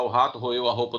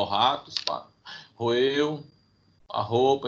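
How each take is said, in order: First: The phrase is said smoothly without pauses. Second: The phrase is broken up by pauses. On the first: The person is breathing normally. "não vai falar" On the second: The person is short of breath. "ele vai falar pausadamente"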